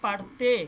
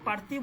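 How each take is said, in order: First: The word ends in an 'ay' vowel. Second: The word ends in an 'ee' vowel. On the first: "ইয়ায় মাঝুল বলতেছি পারতে" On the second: "আমি কিন্তু পারতি বলি নাই"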